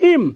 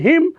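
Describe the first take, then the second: First: The word begins without any h sound. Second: The word begins with a clear h sound. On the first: "হিমের উচ্চারণ ইম" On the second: "হিমের উচ্চারণ হিম"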